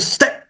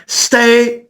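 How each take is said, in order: First: Short, clipped Stay, cut off quick. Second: Long, held-out Stay at a higher pitch; drawn-out stay. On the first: Producer showing the clipped hook: short Stay. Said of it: "or instead of". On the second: Producer showing the hook: long held Stay. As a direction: let Stay ring out long and clear. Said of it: "So if it was more like". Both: Shown as a demonstration.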